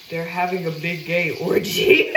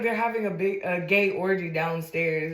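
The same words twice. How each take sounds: First: Slow quote breaking into laughter; laughing. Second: Said in the usual way. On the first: Real, not acted. Retelling the man's club warning, laughing. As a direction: struggle to get it out through laughs. Laughs through the retold line.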